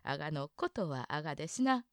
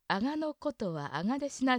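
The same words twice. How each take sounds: First: The pitch stays low on が. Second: The pitch rises on が. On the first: The speaker calls it right. "がが上がらなくて下がったままですね" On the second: The speaker calls it wrong. "ではなくて"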